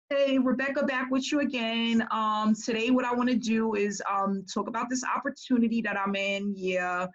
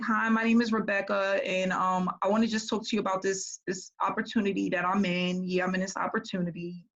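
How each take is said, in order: First: Mimicking the same blah sales pitch; a lightly mocked lifeless recruiter intro; no enthusiasm. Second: Mimicking a bored, blah sales pitch; lightly mock a lifeless recruiter intro; no enthusiasm. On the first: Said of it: "they were all the same". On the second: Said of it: "And she was so blah".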